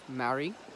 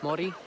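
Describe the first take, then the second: First: The R is a plain English R. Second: The R is a quick flipped tap. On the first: The speaker calls it wrong. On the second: The speaker calls it right.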